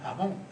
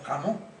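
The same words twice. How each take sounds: First: The first sound is a soft breathy h. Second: The first sound is a harsh throaty rasp. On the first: This is how western Andalusians say it. "la J la pronunciamos también como aspirada" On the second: This is how it is not said there. "y no"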